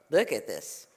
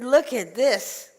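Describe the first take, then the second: First: Low, understated murmur of surprise; marvelling rabbi. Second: Loud, high, drawn-out words; exasperated demand. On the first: Rabbi surveys the crowded house, low amazement. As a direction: drop the pitch and take it in. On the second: Old woman shows rabbi her house, exasperated. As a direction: stretch each word out, raised and loud. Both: Acted.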